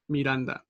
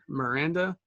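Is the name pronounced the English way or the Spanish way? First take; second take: Spanish; English. First: The name is pronounced with Spanish sounds. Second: The name is pronounced with English sounds. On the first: "the correct Spanish ways of saying it" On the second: "the actual English version"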